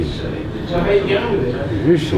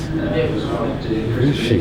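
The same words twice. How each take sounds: First: Very slow, higher rising question; drawn-out searching. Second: Slow, falling inner question; drawn-out wondering. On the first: Man recalling his worry about her, higher drawn-out searching. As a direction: stretch it out and lift it high, searching. Retold anxious wondering, repeated more urgently. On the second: Man recalling his worry about her, slow drawn-out wondering. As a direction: stretch out the searching question, letting it fall. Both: Retold or imitated.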